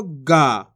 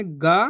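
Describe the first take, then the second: First: Slow गा with a long held vowel; drawn-out vowel. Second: Said in the usual way. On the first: Shown as a demonstration. Teacher contrasting two letters for pupils, गा drawn out. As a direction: stretch गा out, letting it fall. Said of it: "तो खींच के पढ़ेंगे". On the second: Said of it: "इसको कैसे पढ़ेंगे".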